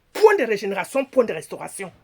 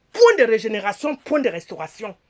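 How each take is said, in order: No difference in how they are said.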